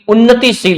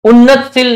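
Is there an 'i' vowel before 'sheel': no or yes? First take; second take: yes; no. First: The word is said with an i before sheel. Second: The word is said without an i before sheel. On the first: The speaker calls it right. "बल्कि उन्नतिशील होता है" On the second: The speaker calls it wrong. "शब्द उन्नतशील नहीं होता"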